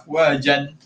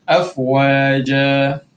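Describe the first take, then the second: First: The word ends with an n sound. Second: The word ends with a long vowel. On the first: The reading continues past this word. "Asalnya afwajan" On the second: The reader stops on this word. "so berhenti jadi afwaja"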